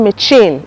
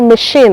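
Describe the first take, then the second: First: The middle consonant is a 'ch' sound. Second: The middle consonant is a 'sh' sound. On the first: The speaker calls it wrong. "the sound here is not machine" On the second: The speaker calls it right. "It's called machine"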